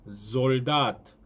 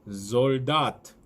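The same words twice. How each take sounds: Both takes have the same delivery.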